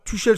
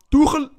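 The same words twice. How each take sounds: First: Said in the usual way. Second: High, loud mock-German "Tuchel"; "Tuchel" in a badly attempted German accent, pitched up; exaggerated German pronunciation of the name. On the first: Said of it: "Tuchel se prononce Tourelle". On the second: Shown as a demonstration. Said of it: "Horrible, mon accent".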